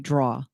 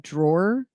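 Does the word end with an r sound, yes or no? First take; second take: no; yes. First: The word ends without any r sound. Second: The word ends with an r sound. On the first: "I would say draw" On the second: "I used to call a drawer"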